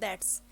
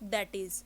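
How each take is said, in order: First: It is said as one contracted word. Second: It is said as two full words. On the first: The speaker calls it right. "इस word को हमने इकट्ठा pronounce करना है" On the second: The speaker calls it wrong. "दैट इज pronounce कर देंगे तो ये वर्ड हमारा रॉन्ग जाएगा"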